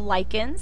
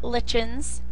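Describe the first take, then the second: First: The middle consonant is a K sound. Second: The middle consonant is a CH sound. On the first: The speaker calls it right. "It's pronounced as a K" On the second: The speaker calls it wrong. "It's not lichens"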